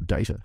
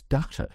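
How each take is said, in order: First: "data" with a long ay in the first syllable; DAY-ta pronunciation. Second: "data" with a broad ah in the first syllable; DAH-ta pronunciation. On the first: Guest correcting himself for his host, "data" said DAY-ta. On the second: Guest trying a word for his host, "data" said DAH-ta. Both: Shown as a demonstration. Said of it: "How do you say it in America?".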